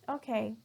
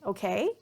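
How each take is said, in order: First: The pitch does not go up at the end. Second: The pitch goes up at the end. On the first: It answers someone's question. "that means I'm responding maybe to somebody asking a question" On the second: It carries a different meaning. "my tone or my pitch is going up"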